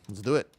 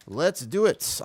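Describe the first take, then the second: First: Said in the usual way. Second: Higher, sing-song rising hype call; excited. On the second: Real, not acted. Streamer rallying his group, higher and sing-song. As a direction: pump the team up with a bouncy rise. Hyping up starting the dungeon.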